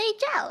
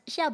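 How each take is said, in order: First: The name begins with a j-like sound. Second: The name begins with a soft sh-like sound. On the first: This is how many community members say it. The speaker calls it wrong. "they'll say jiao. ... There's no zh, there's no j" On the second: This is how the spelling reads to the speaker. The speaker calls it right. "I would still say it as xiao"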